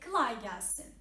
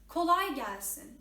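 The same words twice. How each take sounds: First: The first vowel is an I-like sound. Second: The first vowel is a clear O sound. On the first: The speaker calls it wrong. "They say kolay gelsin. ... not I sound" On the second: The speaker calls it right. "It's kolay gelsin. Okay? O sound"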